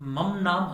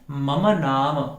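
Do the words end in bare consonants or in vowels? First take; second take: consonants; vowels. First: The words end in bare consonants, no vowel. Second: The words end with a short final vowel. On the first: The speaker calls it wrong. "बोलेंगे तो वह गलत होगा" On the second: The speaker calls it right. "हमें क्या बोलना है?"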